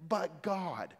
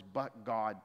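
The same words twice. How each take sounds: First: "But God." with a strong hit on "But", a touch higher and louder; emphatic "But God". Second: Said in the usual way. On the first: Shown as a demonstration. Preacher showing the Greek word order, stressing "But God.". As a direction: punch "But" in "But God." and let it fall. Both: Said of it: "And it's very emphatic".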